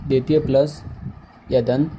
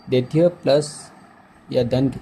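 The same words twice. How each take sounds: The two takes are said the same way.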